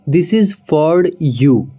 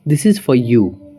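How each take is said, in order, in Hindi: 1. 'For' को उसके स्वर के साथ पूरा बोला जाता है। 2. 'For' को सिर्फ f की आवाज़ तक घटा दिया जाता है। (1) "फॉर को हम फॉर नहीं बोलेंगे" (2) "अब नेटिव में अगर हम बोलेंगे"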